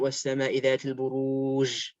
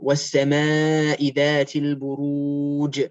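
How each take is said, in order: First: The final jim is a distorted, different noise. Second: The final jim is a full, clear j sound. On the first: The speaker calls it wrong. "It's not" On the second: The speaker calls it right. "make sure that it's Ja, not J"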